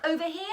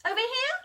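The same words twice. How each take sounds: First: Said in the usual way. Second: Much higher, bright rising "here?"; playful high question. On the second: Pretend. Asking the listening children where to look, playfully high. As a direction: pretend to peek somewhere new, hopeful.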